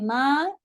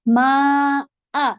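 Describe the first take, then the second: First: The vowel runs on with no glottal break. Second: A sharp glottal break comes before the second vowel. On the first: The speaker calls it wrong. "माँ ऐसा नहीं कहना है" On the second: The speaker calls it right. "Sharp होती है हमजा, स्ट्रॉन्ग"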